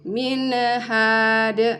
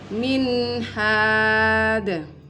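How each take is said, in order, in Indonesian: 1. Bunyi n dipantulkan dengan lepasan kecil. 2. Bunyi n jelas dan mengalir ke h.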